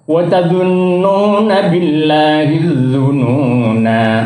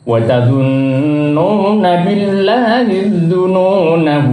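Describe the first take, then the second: First: The final vowel is held long at a stop. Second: The final vowel is short, running into the next word. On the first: The reading stops at this word. "Itu waqaf" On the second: The reading continues without stopping. "kalau wasal itu dibaca pendek"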